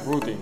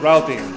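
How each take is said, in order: First: It is said in a British accent. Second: It is said in an American accent. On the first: "with British accent routing" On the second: "American said routing"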